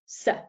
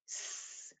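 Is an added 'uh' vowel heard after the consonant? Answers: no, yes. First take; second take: yes; no. First: The consonant is followed by a short 'uh' vowel. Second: The consonant is held alone with no vowel. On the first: The speaker calls it wrong. "not s" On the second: The speaker calls it right. "We say s"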